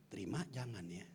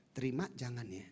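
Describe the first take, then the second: First: Soft, low inner thought. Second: Said in the usual way. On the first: Shown as a demonstration. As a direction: murmur it to yourself. (suara hati yang lirih) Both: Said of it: "Dalam hati nih".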